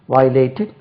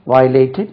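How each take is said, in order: Both takes have the same delivery.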